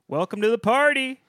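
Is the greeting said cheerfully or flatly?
cheerfully. The greeting sounds upbeat and cheerful.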